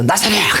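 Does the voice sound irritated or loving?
irritated. The name is called out in an irritated tone. The speaker calls it wrong. "막 신경질 내면서"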